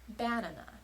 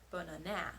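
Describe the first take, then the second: First: The stress is on the first syllable. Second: The stress is on the third syllable. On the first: "putting the stress on the first syllable" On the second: "if we put it on the third syllable"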